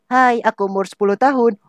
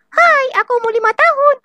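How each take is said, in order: First: The voice sounds like a ten-year-old. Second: The voice sounds like a small child.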